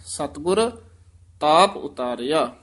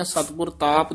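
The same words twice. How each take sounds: First: ਸਤਿਗੁਰ with a rise, a stop, then ਤਾਪ ਉਤਾਰਿਆ; teacher shows the student the right stop after ਸਤਿਗੁਰ. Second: ਸਤਿਗੁਰ ਤਾਪ rushed together without a break; teacher shows the student the wrong way, ਸਤਿਗੁਰ ਤਾਪ run together. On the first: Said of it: "ਇੱਥੇ ਯਮਕ ਲਾ ਦੇਣੀ ਹੈ". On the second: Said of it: "ਨਹੀਂ ਕਹਿਣਾ ਹੈ". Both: Shown as a demonstration.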